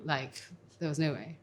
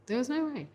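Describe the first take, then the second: First: Said in the usual way. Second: "no" pitched much higher, falling at the end; emphatic repeat. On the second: Real, not acted. Woman recalling her chances at the bar, repeating it much higher. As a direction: repeat it high, stressing "no". Repeated phrase, second take.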